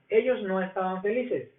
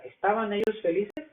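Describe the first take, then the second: First: Ellos no estaban felices. falling at the end; statement tune. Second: ¿estaban ellos felices? rising at the end; question intonation. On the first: Teacher contrasts the statement with the question. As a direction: let felices drop as a statement. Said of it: "una afirmación". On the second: Teacher contrasts the question with the statement. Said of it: "Pero la pregunta". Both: Shown as a demonstration.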